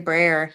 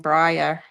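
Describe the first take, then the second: First: The word is said in a plain accent. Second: The word is said with an Australian-sounding accent. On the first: This is how the word should be said. The speaker calls it right. "he couldn't say brayer" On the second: This is how someone else kept saying it. The speaker calls it wrong. "he kept saying brayer. He sounded Australian"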